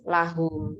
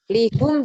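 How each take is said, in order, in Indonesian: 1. Vokal pertamanya bunyi 'a'. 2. Vokal pertamanya bunyi 'i'. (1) "lahum ya" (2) "Lihum juga nggak nggak pas"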